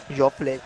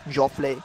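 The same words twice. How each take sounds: The two takes are said the same way.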